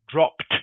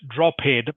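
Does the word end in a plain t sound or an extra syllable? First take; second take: t sound; extra syllable. First: The ending is a plain t sound. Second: The ending is an extra syllable, not t. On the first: The speaker calls it right. "the ed is pronounced just like a T" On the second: The speaker calls it wrong. "Not drop head"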